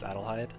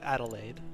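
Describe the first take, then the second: First: The name ends with a 'heid' sound. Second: The name ends with an 'aide' sound. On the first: This is how the real name is pronounced. "the pronunciation of the real name is Adelheid" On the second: This is the character's altered version of the name. "this character's name is Adelaide"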